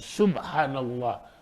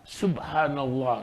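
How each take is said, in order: The two takes are said the same way.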